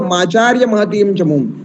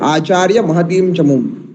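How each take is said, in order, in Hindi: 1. शब्द एक जोड़ने वाली m ध्वनि से जुड़े होते हैं। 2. शब्द बिना किसी जोड़ने वाली ध्वनि के अलग रखे जाते हैं। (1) "एक साथ कहेंगे तो ... संधि करके बोलेंगे" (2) "आकार को भेद करके बोला"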